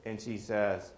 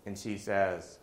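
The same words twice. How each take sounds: The two takes are said the same way.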